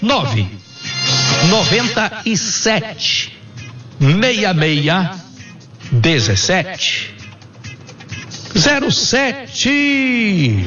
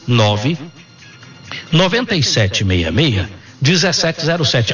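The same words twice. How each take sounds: First: The number is said very slowly. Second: The number is said at normal speed.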